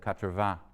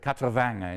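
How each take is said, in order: First: It is said with a standard French accent. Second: It is said with a southern French accent. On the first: "instead of" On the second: "somebody who says"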